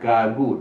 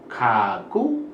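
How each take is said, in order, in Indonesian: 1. Kedua konsonan itu bunyi g. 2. Kedua konsonan itu bunyi k. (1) "bukan gagu" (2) "bukan kaku"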